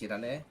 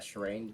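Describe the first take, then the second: First: The name is said in a Japanese way. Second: The name is said in an anglicized way. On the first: This is how the original name is said. The speaker calls it right. "that's actually pronounced" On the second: This is how the community says it. The speaker calls it wrong. "everyone in the community pronounces it uh Shireen"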